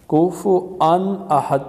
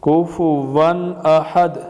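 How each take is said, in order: First: A glottal stop comes before the final vowel. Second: A w sound comes before the final vowel. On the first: The speaker calls it wrong. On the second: The speaker calls it right.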